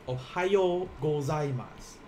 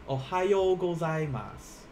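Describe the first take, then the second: No difference in how they are said.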